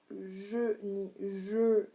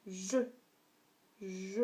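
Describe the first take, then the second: First: "je" drawn out without the sharp drop; wrong tone. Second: "je" dropping sharply; falling tone. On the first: Teacher showing learners a wrong tone, "je" drawn out. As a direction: hold "je" long instead of breaking it. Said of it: "on dit pas". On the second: Teacher showing learners the fourth tone, "je" falling. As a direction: break "je" downward, short and firm. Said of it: "on descend, on casse". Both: Shown as a demonstration.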